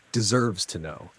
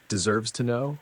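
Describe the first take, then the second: First: "Deserves to know." said back flat and level, letting it sink in; flat bitter repeat. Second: "Deserves to know?" repeated back with a rising question, a little higher; incredulous echo. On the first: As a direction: repeat it dryly to yourself. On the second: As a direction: throw her words back in disbelief. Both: Retold or imitated.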